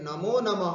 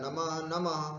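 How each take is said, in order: First: The first word ends with an 'o' sound. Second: The first word ends with a breathy 'h' sound. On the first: "संधि होकर के नमो नमः हो जाता है" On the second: "दो बार बोला जाता है नमः नमः"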